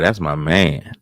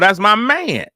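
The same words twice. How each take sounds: First: It is said weakly with tired, low energy. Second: It is said strongly with lots of energy. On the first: The speaker calls it wrong. "You can't be tired" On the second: The speaker calls it right. "You got to be so strong every time"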